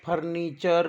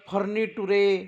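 First: The ending is said as 'cher'. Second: The ending is said as 'too-reh'. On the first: The speaker calls it right. "TUREला चर म्हणून" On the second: The speaker calls it wrong. "असं ना वाचता"

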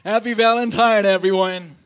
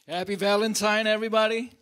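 First: It is said with more energy and force. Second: It is said weakly, with little energy.

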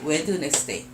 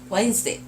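First: Every letter is sounded, giving four syllables. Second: The middle letters are dropped, giving two syllables. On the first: It helps learners remember the spelling. "저는 이제 웬스데이를 웨드네스데이라고 해요" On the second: It is how the word is really read. "진짜 읽을 때는 웬스데이겠지만"

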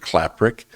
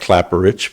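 First: The surname is said the way the family says it. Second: The surname is said the way it looks written. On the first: This is how the family actually says it. "We pronounce it" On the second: This is how the spelling suggests it sounds. "Looks like"

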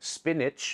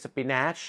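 First: The second syllable has a short 'ih' vowel. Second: The second syllable has a spelled-out 'a' vowel. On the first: The speaker calls it right. "ก็เป็นเสียงสระอิได้เหมือนกัน" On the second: The speaker calls it wrong. "ไม่ใช่"

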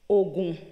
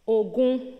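First: Both syllables are said on a low tone. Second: Both syllables are said on a mid tone. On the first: It means medicine or charm. "with two low tones" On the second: It means war. "with two middle tones, sorry"

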